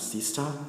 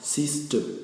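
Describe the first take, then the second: First: The final syllable has a full ta vowel. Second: The final syllable is reduced and weak. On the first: The speaker calls it wrong. "We will not pronounce it as sister" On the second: The speaker calls it right. "but rather as sister"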